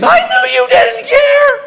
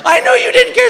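First: Very high, slow, mock-sobbing wife wail; hammed-up tearful wail; wife bursting into fake tears, hammed-up; mock crying wife. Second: Very high sobbing repeat; hammed-up weepy echo; weepy wife repeating herself; mock crying wife. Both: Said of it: "Here comes the tears".

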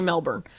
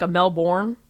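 First: "Melbourne" as MEL-burn with a weak second syllable; "Melbourne" relaxed, unstressed ending; preferred pronunciation. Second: "a Melbourne" with a full R, MEL-born; "Melbourne" as MEL-born, stressed second syllable; wrong pronunciation. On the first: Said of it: "it's definitely Melbourne". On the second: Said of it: "I don't even say". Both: Shown as a demonstration.

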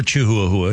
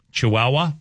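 First: "Chihuahua" as choo-hoo-ah-hoo-ah; deliberate mispronunciation. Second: Said in the usual way. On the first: Shown as a demonstration. Radio host joking about mascot names, "Chihuahua" mispronounced as choo-hoo-a-hoo-a. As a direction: say "Chihuahua" with every syllable spelled out, choo-hoo-a-hoo-a. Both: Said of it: "You can pronounce it any way you want".

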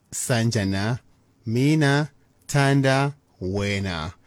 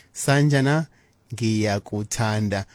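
First: Slow, deliberate "Sanjana, mina thanda wena" with "mina" stressed; wrong old phrasing. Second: "Sanjana" rising, then "ngiyakuthanda" said slowly as one smooth word; correct one word. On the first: Radio teacher showing listeners the old way, slow and stressed. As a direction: drag out "mina thanda wena" as the outdated version. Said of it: "Do not say". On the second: Radio teacher modelling the right Zulu phrase, slow and clear. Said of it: "Use one word". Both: Shown as a demonstration.

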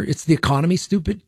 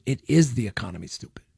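First: Said in the usual way. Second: "is" stressed in a lower, softer restatement. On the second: Real, not acted. Radio host affirms the old slogan to listeners, stress on "is". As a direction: lean on "is", then let "stupid" drop away.

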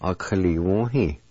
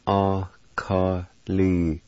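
First: "Akaliwohi" joined as one flowing word; whole-word demo. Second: "Akaliwohi" slow, broken into separate syllables; syllable-by-syllable demo. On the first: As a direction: say "Akaliwohi" straight through, no breaks. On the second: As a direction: stretch "Akaliwohi" out piece by piece. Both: Shown as a demonstration. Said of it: "It's pronounced like this".

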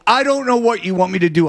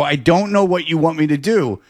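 First: Mild retold yell. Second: Mild mock yell. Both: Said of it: "You shouldn't have yelled at him".

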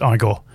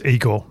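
First: "Igor" opening like the word "eye"; Igor as EYE-gor. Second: "Igor" opening like "eagle"; Igor as EE-gor. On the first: Host correcting the character's name, Igor said EYE-gor. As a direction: say "Igor" with EYE as the first syllable. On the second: Host naming Marty Feldman's film character, Igor said EE-gor. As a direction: say "Igor" with a long EE at the start. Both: Shown as a demonstration. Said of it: "or pronounced Igor".

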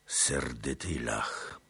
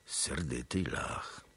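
First: Low, slow, a different thoughtful voice; slow repeat. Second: Low, slow murmur of grudging respect; muttered. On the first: Chmielnicki repeating Tuchaj Bej, slow and low. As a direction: echo the words slowly, weighing them. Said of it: "powtórzył Chmielnicki". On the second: Tatar khan muttering about the angry Pole, low. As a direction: mutter it half to yourself. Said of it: "Tuchaj Bej zaś mruknął". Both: A narrator's reading.

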